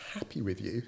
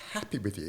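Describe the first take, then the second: First: "Happy with you?" with a rising tune on "Happy"; incredulous question. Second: "Happy with you?" with a falling tune on "Happy"; emphatic echo. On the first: Boss echoing his employee's worry, rising and incredulous. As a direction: ask back in disbelief, lifting at the end. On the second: Boss repeating the question firmly, falling tune. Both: Retold or imitated. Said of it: "And I was like".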